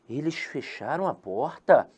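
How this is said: It is said as a question.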